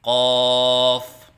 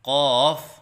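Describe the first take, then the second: First: The long vowel is held steady. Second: The long vowel wavers in the voice. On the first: The speaker calls it right. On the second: The speaker calls it wrong.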